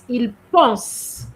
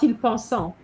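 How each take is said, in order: First: The verb ends at the S sound. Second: The verb ends with a nasal vowel sound. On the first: The speaker calls it right. "you have to stop at the S" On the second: The speaker calls it wrong. "We hear the on sound"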